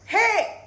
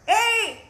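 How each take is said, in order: First: The shout is pushed from the belly. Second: The shout is pushed from the throat.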